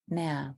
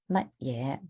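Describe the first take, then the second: First: The word is shortened to one syllable. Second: The word is said as two full syllables. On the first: It is the casual shortened form. "it's just abbreviated into ma or me" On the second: It is the proper full form. "mat ye is like the proper way to say it"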